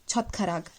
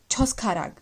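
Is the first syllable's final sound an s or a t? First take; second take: t; s. First: The first syllable ends with a t sound. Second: The first syllable ends with an s sound. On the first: The speaker calls it right. "the logic why we are saying it Chotkharag is because of this rule" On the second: The speaker calls it wrong. "There is nothing uh, like Choskharag"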